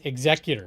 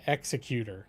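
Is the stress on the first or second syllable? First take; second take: second; first. First: The stress is on the second syllable. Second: The stress is on the first syllable. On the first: The speaker calls it right. "It's executor" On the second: The speaker calls it wrong. "I think you're emphasizing the word wrong. Not ex"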